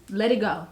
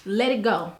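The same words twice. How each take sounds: The two takes are said the same way.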